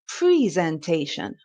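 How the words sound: The first syllable sounds like pree. "in America, they say presentation"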